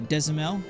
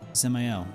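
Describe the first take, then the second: First: The name begins with a sounded D. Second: The name begins without any D sound. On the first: The speaker calls it wrong. "I've been pronouncing it uh" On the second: The speaker calls it right. "So the D is silent"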